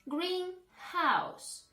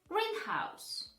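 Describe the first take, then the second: First: The stress falls on both parts equally. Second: The stress falls on the first part only. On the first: A house painted green. "Both words should be stressed" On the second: A building for growing plants. "the first word correctly will be pronounced as greenhouse"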